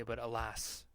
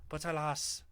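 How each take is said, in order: First: Said in the usual way. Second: Mock Western European accent; hammed-up Western European accent. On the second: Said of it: "Western European accent or something".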